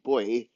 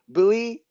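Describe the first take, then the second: First: It is said the Canadian way. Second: It is said the American way. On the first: "like boy in, in Canada" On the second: "like buoy in America"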